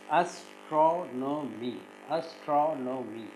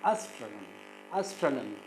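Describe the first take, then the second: First: Slow "astronomy" in four separate syllables; "astronomy" with each syllable set apart. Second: "astronomy" said whole, weight on TRON; "astronomy" as one word, second syllable stressed. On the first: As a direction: break "astronomy" into as, tro, no, my. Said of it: "how to syllabify this". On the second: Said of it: "the second syllable is stressed". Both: Shown as a demonstration.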